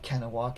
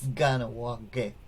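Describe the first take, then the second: First: The word begins with a voiceless K sound. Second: The word begins with a voiced G sound. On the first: The speaker calls it wrong. "it's not Kanawake" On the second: The speaker calls it right. "the K's are pronounced like G's"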